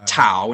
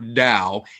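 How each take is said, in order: First: The word starts with a clear T sound. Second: The word starts with a clear D sound. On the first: "It's not tau" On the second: "it's not Dao"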